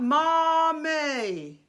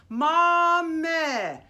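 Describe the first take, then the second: First: "mame" sliding into an "ay" glide; the mistake: "mame" with a glide at the end; wrong diphthong mame. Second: "Mame" held on a pure open "e" with no glide; correct mame. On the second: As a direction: sustain "Mame", keep the vowel pure. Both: Shown as a demonstration. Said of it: "It's not mame".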